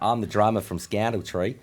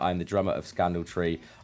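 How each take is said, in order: First: It is read in an Australian accent. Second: It is read in his normal accent.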